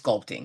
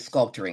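First: The word is said with two syllables. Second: The word is said with an extra syllable. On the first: The speaker calls it right. "It's sculpting" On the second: The speaker calls it wrong. "I added another syllable to that. I said sculpting"

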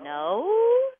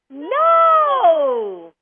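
First: It is said in a confused tone. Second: It is said in a happy tone.

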